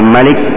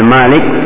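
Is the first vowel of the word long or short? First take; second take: short; long. First: The first vowel is short. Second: The first vowel is long. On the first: It describes an attribute of the essence. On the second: It describes an attribute of action.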